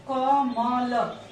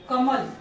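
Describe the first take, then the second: First: कमल very slow, split sound by sound as क, म, ल; sounded out slowly. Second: Said in the usual way. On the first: Shown as a demonstration. Teacher showing a sample word to students, कमल sounded out letter by letter. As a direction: draw out each letter of कमल separately. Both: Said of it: "यदि इसका हम उच्चारण करते हैं".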